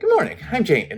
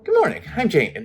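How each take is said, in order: First: It is said in an old woman's voice. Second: The same.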